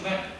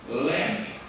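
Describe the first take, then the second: First: The word is said quickly and clipped short. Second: The word is said slowly and drawn out. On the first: The speaker calls it wrong. "If you use the Chinese speak very fast" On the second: The speaker calls it right. "Slowly make them longer, like this one"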